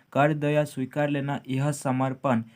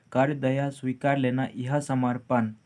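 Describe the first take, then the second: The two takes are said the same way.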